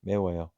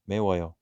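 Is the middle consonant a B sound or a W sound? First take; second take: W sound; W sound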